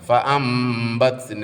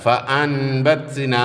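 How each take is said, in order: First: The sound before the b is an m. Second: The sound before the b is an n. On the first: The speaker calls it right. "ഫ അംബത്ന എന്ന ഓതുക" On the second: The speaker calls it wrong. "എന്ന് എഴുതിയോടത്ത്"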